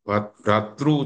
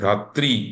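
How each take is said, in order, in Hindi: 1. यह गुजराती क्षेत्रीय उच्चारण में बोला जाता है। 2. यह उत्तर भारतीय क्षेत्रीय उच्चारण में बोला जाता है। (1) "गुजराती में भ्रातृ शब्द का भ्रातृ उच्चारण करते हैं" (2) "उत्तर भारत में भ्रातृ"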